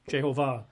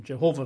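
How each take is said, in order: First: Jehovah as je-ho-VAH; Jehovah with end stress on "vah"; stress on last syllable. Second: Said in the usual way. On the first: Shown as a demonstration. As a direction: land on the final syllable of Jehovah. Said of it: "with the emphasis on the last syllable". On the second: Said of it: "rather than Jehovah".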